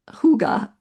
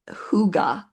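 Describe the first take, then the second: First: The word is said the Danish way. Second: The same.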